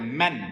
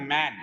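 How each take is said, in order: First: "मैन" cut short, like English "men"; short vowel. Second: MAN with the vowel "मैन" drawn out long. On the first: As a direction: say "मैन" with a short e, not stretched. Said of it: "इसको हम थोड़ा सा काट देते हैं". ("मैन" का स्वर छोटा, काटकर) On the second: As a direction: stretch the A in "मैन". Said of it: "इसमें हम थोड़ा लंबा खींचते हैं". ("मैन" में लंबा खिंचा हुआ स्वर) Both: Shown as a demonstration.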